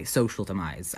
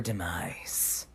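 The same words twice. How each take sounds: First: Said in the usual way. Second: Low, dark, dropping to a hush; ominous. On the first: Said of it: "I should clarify". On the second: Acted. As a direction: say it like a villain sealing fate. Dramatic revenge build-up.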